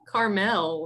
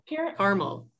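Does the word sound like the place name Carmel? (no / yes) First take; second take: yes; no. First: It sounds like the place name Carmel. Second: It does not sound like Carmel. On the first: The speaker calls it wrong. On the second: The speaker calls it right.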